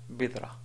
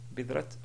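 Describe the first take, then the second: First: The word ends in an open a vowel. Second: The word ends in a clear t sound. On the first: The speaker calls it right. "si on voulait appliquer les règles de l'arrêt sur un mot dans la langue arabe, alors ce sera bidra" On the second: The speaker calls it wrong. "Bidrat, ben alors là, vraiment, c'est pas correct"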